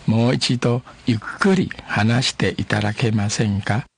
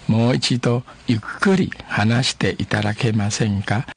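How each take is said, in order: First: Each syllable laid out slowly for learners; a teacher spelling out a polite request slowly; slow, careful demo. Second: Each syllable laid out slowly for learners; a teacher modelling the phrase again slowly; slow, careful demo. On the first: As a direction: model it slowly and clearly. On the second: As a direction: repeat it slowly for the class. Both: Shown as a demonstration. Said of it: "慢慢啊".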